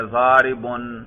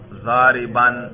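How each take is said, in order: First: ضاربن said as daaribun, ending in -un; nominative ending. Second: ضاربن said as daariban, ending in -an; accusative ending. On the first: Teacher showing students the raf' case, daaribun with -un. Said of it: "اس کے رفع پر ہم تلفظ کر رہے ہیں". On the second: Teacher showing students the nasb case, daariban with -an. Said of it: "نصب پر ذرا تلفظ کرو". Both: Shown as a demonstration.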